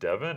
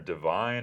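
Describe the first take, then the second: First: The name ends with a short 'von' sound. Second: The name ends with a long 'vine' sound. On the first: "is it pronounced Devon or Divine?" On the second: "is it pronounced Devon or Divine?"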